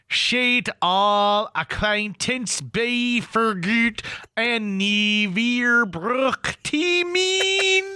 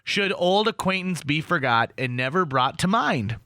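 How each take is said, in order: First: It is said with a broad Scots accent. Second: It is said with a standard English accent. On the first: "here's what it sounds like from the Scots pronunciation guide" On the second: "So here's what it is"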